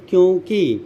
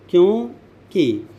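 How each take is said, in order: First: Said in the usual way. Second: क्योंकि split slowly into क्यों, pause, कि; slow word breakdown. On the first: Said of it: "जैसे आप देखिए". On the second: Shown as a demonstration. Teacher dissecting a word for students, क्योंकि slow and split. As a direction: say क्योंकि at half speed, parting क्यों from कि. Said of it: "अब क्यों में देखिए".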